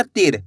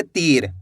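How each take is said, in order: First: तीर with a quick, short i. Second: तीर with its ee drawn out; stretched long ee. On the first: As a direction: cut the vowel short in तीर. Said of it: "ऐसे नहीं पढ़ना". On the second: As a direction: hold the vowel in तीर. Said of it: "खींच के". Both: Shown as a demonstration.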